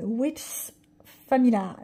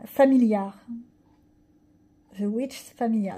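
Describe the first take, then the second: First: French-accented English, hesitant; self-conscious English accent. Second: Retry English accent. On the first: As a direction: stumble over the English title. (accent anglais hésitant) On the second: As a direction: correct yourself on "Familiar". ("Familiar" repris avec un accent anglais appuyé) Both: Real, not acted. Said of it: "mais alors mon accent, ça fait peur".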